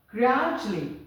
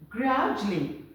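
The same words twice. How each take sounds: Both takes have the same delivery.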